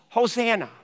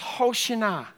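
First: The middle consonant is a plain s sound. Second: The middle consonant is an sh sound. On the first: "It's Hosanna" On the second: "In Hebrew, it sounds Hoshana"

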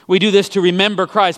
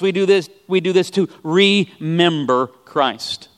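First: The stress falls normally on the second syllable. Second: The first syllable 're' is stressed and set apart. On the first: Call Christ to mind. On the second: Put the body of Christ back together.

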